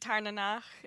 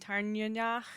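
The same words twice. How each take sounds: First: The middle E vowel is reduced. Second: The middle E vowel is fuller. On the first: This is the most commonly heard form. "Tarnanach is what I've heard the most" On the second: This is an acceptable alternative form. "like pronounce the E a little bit more"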